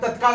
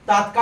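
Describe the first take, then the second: First: The first vowel is a short a. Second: The first vowel is a long a. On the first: The speaker calls it right. "पण तत्काळ म्हणायचं" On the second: The speaker calls it wrong. "तात्काळ आपण म्हणतोय"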